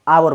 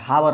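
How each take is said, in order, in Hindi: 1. शब्द स्वर से शुरू होता है, h नहीं। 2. शब्द h की आवाज़ से शुरू होता है। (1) "आवर बोला जाता है" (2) "हावर नहीं"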